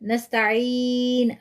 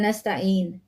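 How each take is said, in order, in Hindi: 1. आखिरी n से पहले के स्वर को लंबा खींचा जाता है। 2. आखिरी n से पहले के स्वर को छोटा रखा जाता है।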